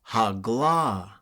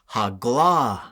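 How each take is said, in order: The two takes are said the same way.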